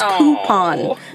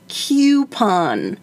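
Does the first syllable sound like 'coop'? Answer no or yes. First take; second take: yes; no. First: The first syllable sounds like 'coop'. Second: The first syllable does not sound like 'coop'. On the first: The speaker calls it right. "It's coupon" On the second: The speaker calls it wrong. "I think Adam would say coupon"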